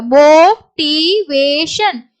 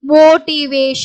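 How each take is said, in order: First: Slow, long first vowel; drawn-out syllables. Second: Said in the usual way. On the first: Shown as a demonstration. Teacher shows learners the long vowel, drawn-out syllables. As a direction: stretch "motivation" syllable by syllable.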